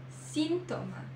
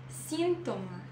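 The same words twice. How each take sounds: No difference in how they are said.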